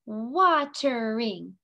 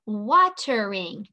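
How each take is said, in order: First: "Watering" slowly, in three beats: wa-ter-ing; split into syllables. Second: Said in the usual way. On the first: Shown as a demonstration. Teacher touching the head for each part, "Watering" syllable by syllable. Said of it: "Three syllables". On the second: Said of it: "touch our head again".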